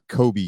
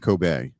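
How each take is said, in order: First: The final vowel sounds like ee. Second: The final vowel sounds like ay. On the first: The speaker calls it wrong. "it is not Kobe Steakhouse" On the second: The speaker calls it right. "the E at the end is pronounced as an A"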